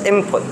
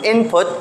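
First: The consonant before the p is an m sound. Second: The consonant before the p is an n sound. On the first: "In rapid pronunciation of the word input, kung paspasonin mo na siya, eventually you will pronounce it as input" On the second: "instead of I-N-P-U-T"

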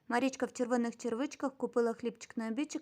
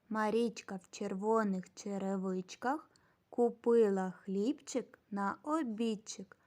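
First: The phrase is spoken very fast. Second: The phrase is spoken slowly. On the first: "Тепер ще швидше" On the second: "А тепер разом і повільно"

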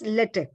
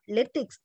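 First: The final X sound is silent. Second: The final X sound is pronounced. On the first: The speaker calls it right. "X is always silent" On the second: The speaker calls it wrong. "Correct pronunciation is not LaTeX"

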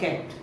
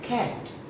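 First: The vowel is short and closed. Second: The vowel is long and open. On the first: The speaker calls it wrong. "Not कैट" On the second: The speaker calls it right. "But कैट, लंबा इसका ऊंचा होगा"

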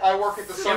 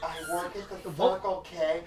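First: The sentence is said at a normal quick pace. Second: The sentence is said at a slower pace.

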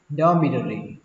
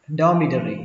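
Both takes have the same delivery.

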